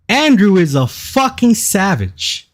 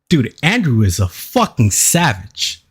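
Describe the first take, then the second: First: Higher and slower, leaning on Andrew; slow awed repeat. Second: Said in the usual way. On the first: Real, not acted. Streamer repeats his praise of Andrew, drawn out and higher. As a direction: stretch it out, savoring the words.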